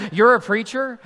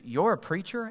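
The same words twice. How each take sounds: First: Loud, high incredulous question; shocked disbelief. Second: Understated, higher-pitched questioning; puzzled double-check, mildly taken aback; shocked disbelief. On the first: Shown as a demonstration. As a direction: exaggerate the shock for laughs. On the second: Acted. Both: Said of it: "like they're shocked".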